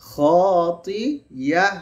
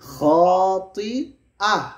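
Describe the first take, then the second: First: A y glide joins the middle vowels. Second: A glottal stop separates the middle vowels. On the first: The speaker calls it wrong. "খাতিয়াহ না আহ।" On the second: The speaker calls it right. "এটা তো হামজা।"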